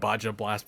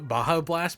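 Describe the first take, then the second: First: The j in Baja sounds like a j. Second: The j in Baja sounds like an h. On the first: It is said this way as a joke. "I just like saying Baja Blast because it's funnier" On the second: This is the proper way to say it. "I know it's like ba- Baja Blast"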